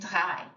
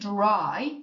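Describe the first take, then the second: First: The R is made in the throat. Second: The R is an English R. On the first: The speaker calls it right. "You kind of feel it in your throat when you say it" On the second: The speaker calls it wrong. "We're not saying dry like we would in English"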